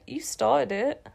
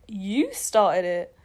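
First: Said in the usual way. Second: "You" drawn out slowly, throwing it back; slow retort with a stretched "You"; stress on YOU. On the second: A narrator's reading. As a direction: lean long on "You" to return the blame. Character throws the accusation back.

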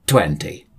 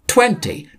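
First: Said in the usual way. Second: "Twenty" squeaked very high with a falling tune; "Twenty" said very high, crisp and emphatic; stressed twenty. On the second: Shown as a demonstration. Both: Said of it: "Two oh".

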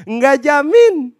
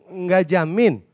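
First: Loud, high, drawn-out retort; emphatic rebuttal. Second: Said in the usual way. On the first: Acted. Preacher rebuts a praying believer, loud drawn-out emphasis. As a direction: stretch it out and ring it loudly. Emphatic repeat answer to objection.

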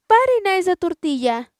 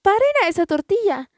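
First: Shouting again. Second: Shouting. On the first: Family keeps yelling to stop the tortilla, shouting. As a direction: keep yelling it down the street. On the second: Family yells to passers-by to stop the tortilla, shouting. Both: A narrator's reading. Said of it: "gritándole a la gente".

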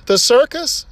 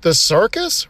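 First: Raised disbelieving second asking; incredulous repeat. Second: Said in the usual way. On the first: Acted. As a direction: ask again, now in disbelief. The duck asks again.

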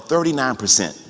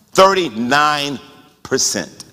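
First: Said in the usual way. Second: "Thirty-nine percent" at half speed, falling away on "percent"; emphatic repeat. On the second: Real, not acted. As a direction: draw out "Thirty-nine", pause, then drop "percent".

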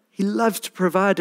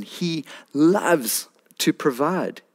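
First: Higher, rising lift on loves; bright rising restatement; higher rising repeat. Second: Drawn out slowly, leaning on loves; slow tender emphasis on loves; slow savoring emphasis. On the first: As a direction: lift it up with joy. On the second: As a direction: let it sink in slowly. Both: Shown as a demonstration.

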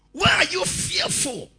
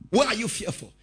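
First: High, loud "Why are you fearful?"; loud rebuke. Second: Said in the usual way. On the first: Acted. Preacher pressing Jesus' question on the congregation, loud rebuke. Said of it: "preacher repeats Jesus' question". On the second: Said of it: "repeated softer".

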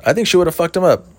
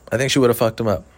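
First: High, loud first take on "think"; emphatic. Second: Said in the usual way. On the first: Shown as a demonstration. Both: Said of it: "repeated line".

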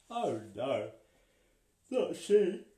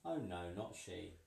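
First: High, loud triumphant exclamation; dramatic. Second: Said in the usual way. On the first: A narrator's reading. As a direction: proclaim it with triumph. Storyteller dramatic answer.

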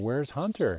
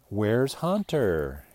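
First: Said in the usual way. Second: Slow, stretched "Where's Hunter?" like a T-shirt slogan; slogan, drawn out. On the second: Shown as a demonstration. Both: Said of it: "He wants to get a t-shirt made".

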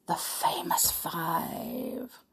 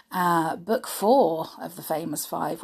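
First: Slow, hushed title reveal; dramatic whisper. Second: Said in the usual way. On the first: Pretend. Storyteller teases the book title in a slow whisper. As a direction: breathe the title like a secret.

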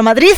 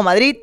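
First: "Madrid" ending in a lisped th, Madriz; final Z. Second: "Madrid" said with a hard final T, Madrit. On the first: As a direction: put a Spanish Z at the end of "Madrid". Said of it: "porque no hay una Z". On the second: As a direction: close "Madrid" on a T sound. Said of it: "Yo normalmente digo Madrid". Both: Shown as a demonstration.

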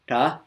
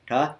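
First: "Ta" with no puff of air, crisp; unaspirated ta. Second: "ta" with a strong puff of air after the t; aspirated ta. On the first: Teacher showing the retroflex ta with no air, unaspirated. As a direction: say "Ta" with no breath after the t. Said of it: "no air". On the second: Teacher showing the retroflex ta with air, aspirated. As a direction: breathe out hard on "ta". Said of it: "and then air". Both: Shown as a demonstration.

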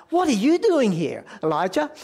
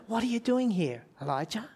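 First: Higher and louder, a sharp accusing challenge; accusing demand. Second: Softer, tender, the name trailing away quietly; gentle inviting question. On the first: God confronting Elijah in the cave, sharp accusing demand. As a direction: fire the question at him like a rebuke. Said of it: "you could say it like". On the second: God gently inviting Elijah to open up, soft and tender. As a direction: ask it kindly, as an open invitation. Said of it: "it says it quite differently, doesn't it". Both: Shown as a demonstration.

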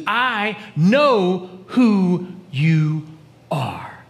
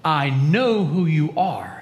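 First: I know who you... very slow, fading to a whisper on are; stress on I. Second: Said in the usual way. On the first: Shown as a demonstration. Preacher stresses the demon's personal "I", very slow and hushed. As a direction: draw out "I know who you" slowly, then breathe "are". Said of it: "He doesn't say "we." He says". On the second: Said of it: "He doesn't say "we".

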